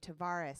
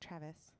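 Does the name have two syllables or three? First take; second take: three; two. First: The name is said with three syllables. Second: The name is said with two syllables. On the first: The speaker calls it right. "Thank you" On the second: The speaker calls it wrong.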